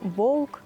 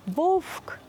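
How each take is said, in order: First: The v before k sounds close to a u. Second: The v before k sounds close to an f. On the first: The speaker calls it right. "Правильно вимовляти" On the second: The speaker calls it wrong. "не можна наближати до «фи»"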